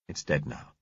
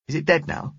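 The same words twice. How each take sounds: First: Low, soft grown-up answer; reassuring man. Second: Put-on high child's question; anxious little girl. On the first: Driver answers girl after shooting triffid, quietly reassuring. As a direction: settle it quietly and low for a child. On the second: Girl asks driver about the shot triffid, high child. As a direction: ask in a small girl's high voice. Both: A narrator's reading.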